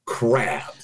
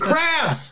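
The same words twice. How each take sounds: First: The title is said flatly, without excitement. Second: The title is said excitedly, with exclamation.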